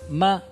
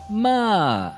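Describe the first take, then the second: First: The pitch stays high and level. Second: The pitch glides down from high to low. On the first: It means mother. "é um tom pontual alto" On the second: It means to scold. "um tom deslizante de alto para baixo"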